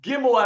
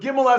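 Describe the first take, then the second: First: It begins with a hard G sound. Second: It begins with a soft J sound. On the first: "not Gimel as in Ga" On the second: "Gimel as in Ja, like a J"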